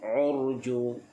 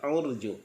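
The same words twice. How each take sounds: First: The r is pronounced heavy and full. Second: The r is pronounced light and thin. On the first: The speaker calls it right. "urju dibaca juga dengan tebal" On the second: The speaker calls it wrong. "jangan urju"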